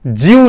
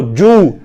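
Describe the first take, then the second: First: ज्यू with a y after the j; wrong glide. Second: जू with a pure double-o, no glide; correct vowel. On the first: Teacher shows the sound to avoid, wrong glide. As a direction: say ज्यू as "jyoo". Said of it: "ज्यू नहीं कहना". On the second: Teacher models the sound to use, correct vowel. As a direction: round जू straight after the j. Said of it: "बल्कि double ओ". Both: Shown as a demonstration.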